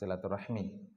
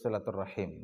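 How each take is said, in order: First: The word ends with the sounds 'rahmi'. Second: The word ends with the sounds 'rahim'. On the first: The speaker calls it wrong. "bukan silaturahmi" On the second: The speaker calls it right. "yang betul itu silaturahim"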